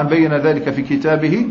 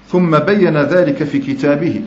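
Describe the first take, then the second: First: Said in the usual way. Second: ثم بين ذلك في كتابه said slowly and deliberately, every word weighed; slow hadith recitation. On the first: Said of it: "إشارة إلى القرآن الكريم". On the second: Shown as a demonstration. Preacher quoting the Prophet's words to students, slowly and deliberately. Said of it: "فقال صلى الله عليه وسلم".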